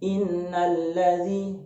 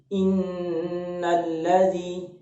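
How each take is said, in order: First: The nasal sound on nn is held briefly. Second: The nasal sound on nn is held long. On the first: The speaker calls it wrong. "Tidak cukup hanya sekedar kita membaca innalladzi" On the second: The speaker calls it right. "tetapi harus innalladzi"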